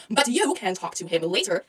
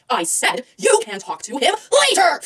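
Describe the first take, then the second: First: Soft, low dismissal; hushed, held-in irritation; restrained brush-off. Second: Insistent snap, stressing LATER; mock-angry insistence; irritated outburst. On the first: Acted. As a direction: quietly send a rival away. First, restrained brush-off of rival. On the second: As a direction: repeat it crossly, hitting LATER. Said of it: "that side of me".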